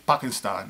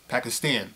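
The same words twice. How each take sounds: First: It is pronounced the way Pakistanis say it. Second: It is pronounced in an anglicized American way. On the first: The speaker calls it right. "He taught me how to say Pakistan" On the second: The speaker calls it wrong. "instead of Pakistan"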